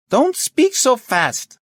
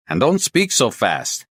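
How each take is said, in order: First: Very high, slow shout; shouting slowly. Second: Slow, higher, emphatic words; slow and deliberate. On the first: Chief to inspector on a bad line, shouting slowly. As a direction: shout each word separately. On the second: Inspector asking the caller to slow down, deliberate. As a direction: space the words out for a bad line. Slowing down for bad line. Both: Acted.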